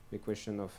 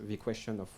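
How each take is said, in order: Both takes have the same delivery.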